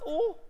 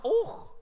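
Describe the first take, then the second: First: "oh" as an open vowel alone; high "oh" without any throaty ending; simple "oh". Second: "oh" with a throaty ch at the end; high "oh", closed off like och; rejected Scottish "oh". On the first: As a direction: leave "oh" open at the end. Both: Shown as a demonstration.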